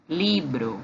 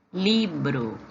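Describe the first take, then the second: First: "libro" repeated with Spanish b. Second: "libro" with a Spanish b; Spanish pronunciation. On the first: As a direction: echo "libro" once more. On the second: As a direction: model "libro" for the class. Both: Shown as a demonstration. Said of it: "Livro em espanhol se diz assim, ó".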